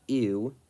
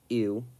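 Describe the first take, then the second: Both takes have the same delivery.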